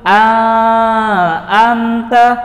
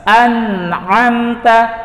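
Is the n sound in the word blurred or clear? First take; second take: blurred; clear. First: The n sound is blurred or dropped. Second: The n sound is pronounced clearly. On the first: The speaker calls it wrong. "Tidak boleh dibaca" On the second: The speaker calls it right. "Harus dibaca jelas"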